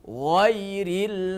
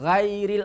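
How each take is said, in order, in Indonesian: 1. Bunyi awalnya gh tebal dan bertekanan. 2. Bunyi awalnya gh tipis dan ringan.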